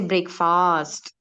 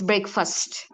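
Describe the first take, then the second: First: The second syllable sounds like the word fast. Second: The second syllable is reduced, not like fast. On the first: The speaker calls it wrong. "Don't say fast" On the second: The speaker calls it right. "It's breakfast"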